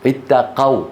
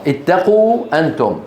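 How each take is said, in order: First: اتقوا with the qaf open, itaqaw. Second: اتقوا with qaf rounded, itaqu; imperative form. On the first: Teacher contrasts past form for class, qaf open. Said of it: "مفتوح القاف". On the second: Teacher gives the command form to pupils, qaf rounded. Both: Shown as a demonstration.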